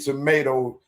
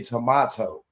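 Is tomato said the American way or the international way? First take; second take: American; international. First: It is said with an American pronunciation. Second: It is said with a non-American pronunciation. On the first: "in America you say tomato" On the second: "in international you say tomato"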